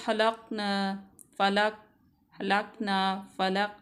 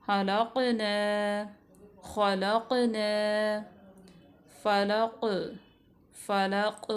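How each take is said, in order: First: हलक़ना and फ़लक़ with the क़ swallowed, no echo on it; wrong way, no qalqala. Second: हलक़ना and फ़लक़ with the क़ bounced, a clear echo on the closing consonant; with qalqala. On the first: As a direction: clip the क़ flat, without any bounce. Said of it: "ये गलत तरीका है". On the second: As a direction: give the क़ a little jolt so it rings out. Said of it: "क़ाफ़ साकिना की मिसालें हैं". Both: Shown as a demonstration.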